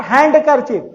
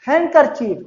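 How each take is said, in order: First: "हैंडकरचीफ" with the d sounded; the mistake "हैंडकरचीफ"; "हैंडकरचीफ" with a clear d; wrong pronunciation. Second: "हैंकरचीफ" as HANG-ker-chief, no d; "हैंकरचीफ" said hankerchief; correct pronunciation. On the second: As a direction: model "हैंकरचीफ" with the d dropped. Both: Shown as a demonstration. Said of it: "not हैंडकरचीफ".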